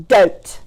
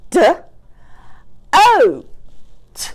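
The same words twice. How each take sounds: First: Said in the usual way. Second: "d, o, t" in isolated sounds, O high; chopped-out word. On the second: Shown as a demonstration. Teacher changing the vowel for pupils, chopped apart. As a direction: sound out DOTE with long gaps. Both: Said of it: "What about".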